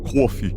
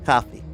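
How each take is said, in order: First: It is said in a New York accent. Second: It is said in a generic American accent.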